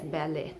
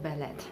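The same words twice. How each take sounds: First: The final T is silent. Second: The final T is pronounced. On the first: The speaker calls it right. "It is pronounced as ballet" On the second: The speaker calls it wrong. "not ballet"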